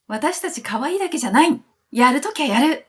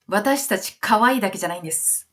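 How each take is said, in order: First: High, punchy imitated boast; defiant declaration. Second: Polite declaration. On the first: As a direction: play the group insisting they mean business, pitch up. Voicing the group's bold declaration. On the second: Retold or imitated. Voicing the group's polite declaration.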